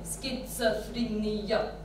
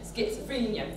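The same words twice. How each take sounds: First: All syllables get equal weight and length. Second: One syllable is stressed, the others squished. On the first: "everything has the same kind of stress, yeah? Same weight" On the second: "We just worry about the stresses"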